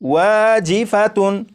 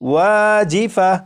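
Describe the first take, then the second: First: The word ends with a 'tun' sound. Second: The word ends with an 'h' sound. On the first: The reader continues without stopping on the word. "आखिर में गोलता और उसके ऊपर दो पेश" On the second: The reader stops on this word. "जब इस लफ्ज़ पर वक्फ करेंगे तो फिर इसे वाजिफातुन नहीं पढ़ेंगे, बल्कि ये पढ़ा जाएगा"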